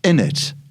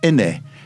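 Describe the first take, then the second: First: The final t sound is pronounced. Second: The final t sound is dropped.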